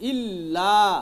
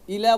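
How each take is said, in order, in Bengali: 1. L ধ্বনিটি দীর্ঘ করে টানা হয় এবং দ্বিত্ব। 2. L ধ্বনিটি ছোট ও একক। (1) "ইল্লা বলতে হবে" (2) "ইলা বললে হবে না"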